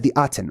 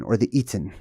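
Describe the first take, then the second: First: "Aten" said with an opening ah, AH-ten; alternate pronunciation. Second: "Aten" said with a long ee, EE-ten; alternate pronunciation. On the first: Teacher naming the sun disc, ah-pronunciation of Aten. Offers two pronunciations of the name. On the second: Teacher offering another name, ee-pronunciation of Aten. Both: Shown as a demonstration.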